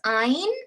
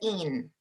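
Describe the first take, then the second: First: The ending has a long vowel. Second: The ending has a short vowel. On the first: The speaker calls it wrong. "as Americans we pronounce I N E as ein" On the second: The speaker calls it right. "When it comes to drugs, you pronounce it as in"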